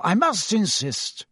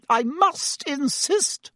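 First: Slow, firm, moderately raised pitch; firm insistence. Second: Very high, drawn-out hysterical insistence. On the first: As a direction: overrule her with composed authority. Dumbledore firmly overrules the matron. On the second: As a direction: insist as if at your wits' end. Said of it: "said Madame Pomfrey hysterically". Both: A narrator's reading.

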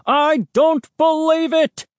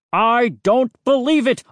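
First: Even higher, louder outraged cry; louder shout. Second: Put-on loud outraged old neighbour; angry shout. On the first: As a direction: escalate to a furious yell. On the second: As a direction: bellow it in disbelief. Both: A narrator's reading. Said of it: "Mister McCall's cries".

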